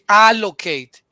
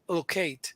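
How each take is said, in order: First: The first vowel is a full, clear vowel. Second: The first vowel is very slight and reduced. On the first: The speaker calls it wrong. "You don't say allocate" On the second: The speaker calls it right. "you say allocate. ... Almost um imperceptible"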